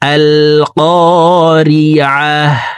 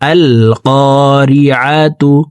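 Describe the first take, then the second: First: The word ends with a silent h sound. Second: The word ends with a tu sound. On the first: The reading stops at the end of the verse. "এই গুলতাকে হার উচ্চারণ করে হাকে সাকিন করে ফেলবো" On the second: The reading continues without stopping. "তা পেশতু"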